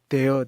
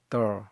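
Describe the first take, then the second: First: It has a full, open vowel. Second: It has a weak vowel, almost like 'the'. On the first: "우리가 흔히 그냥 there" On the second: "발음이 there 이렇게 어, 정관사 더하고 발음이 거의 비슷합니다"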